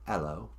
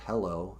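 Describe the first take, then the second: First: The word starts without any h sound. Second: The word starts with a clear h sound. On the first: "instead of pronouncing the H's" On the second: "instead of saying hello"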